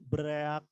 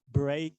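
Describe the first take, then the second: First: It is said with an extra vowel, two syllables. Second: It is said as a single syllable. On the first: The speaker calls it wrong. "bukan bereak" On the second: The speaker calls it right. "Tapi bacanya adalah break a leg"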